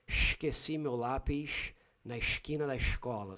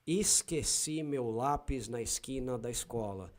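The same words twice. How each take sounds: First: Heavy "sh" for S in esquina and escola, Rio style; Carioca accent. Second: São Paulo Portuguese, crisp "s" in esquina and escola; São Paulo accent. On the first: Repeating the sentence as Cariocas say it, Rio accent. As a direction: say it like a Carioca, hushing the S. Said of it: "So they shh very much". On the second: Repeating the funny sentence as Paulistas say it, São Paulo accent. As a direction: keep every S a plain "s", Paulista style. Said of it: "Paulistas will say". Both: Shown as a demonstration.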